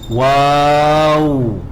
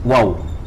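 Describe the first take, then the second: First: The vowel is drawn out long. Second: The vowel is cut short. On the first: The speaker calls it right. "to prolong at the alif first" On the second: The speaker calls it wrong. "Without the alif"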